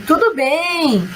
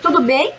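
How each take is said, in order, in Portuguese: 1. A entonação desce no final. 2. A entonação sobe no final.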